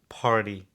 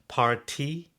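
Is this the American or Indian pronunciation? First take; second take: American; Indian. First: It is said with an American accent. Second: It is said with an Indian English accent.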